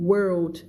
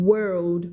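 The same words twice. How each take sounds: The two takes are said the same way.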